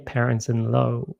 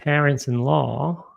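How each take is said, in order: First: The last word has an 'oh' vowel. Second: The last word has an open 'aw' vowel. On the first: The speaker calls it wrong. "a nie parents-in-law" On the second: The speaker calls it right. "czyli to jest parents-in-law"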